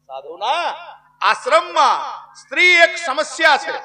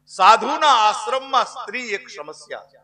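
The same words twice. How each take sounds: First: Questioning rise on સાધુના, then the rest higher; emphatic echo. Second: Said in the usual way. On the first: Acted. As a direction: repeat it broken up, સ્ત્રી એક સમસ્યા pushed high. Same line repeated as loud echo. (સાધુના પર અટકીને ભારપૂર્વક પુનરાવર્તન) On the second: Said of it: "કાનમાં કીધું".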